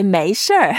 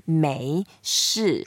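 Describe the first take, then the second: First: 没事儿 louder, with Beijing r-colored ending; Beijing accent. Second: 没事 slowly, with no r ending; standard pronunciation. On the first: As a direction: curl 没事儿 into a Beijing "shr". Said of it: "you are from Beijing area". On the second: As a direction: say 没事 ending in a plain falling shi. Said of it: "instead of saying". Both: Shown as a demonstration.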